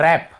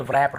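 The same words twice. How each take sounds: First: रैप starting straight on R; correct pronunciation. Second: व्रैप with a V sound before R; wrong pronunciation. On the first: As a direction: say रैप with the W silent. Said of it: "डब्ल्यू को नहीं पढ़ना". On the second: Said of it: "हम पढ़ ही नहीं रहे". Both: Shown as a demonstration.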